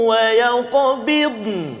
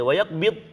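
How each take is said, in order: First: Both consonants are present, with no explosive bounce. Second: The final n sound is left out. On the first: The speaker calls it right. "saya cuba baca ni, cuba perhatikan" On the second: The speaker calls it wrong. "ada dot saja, nun tak ada"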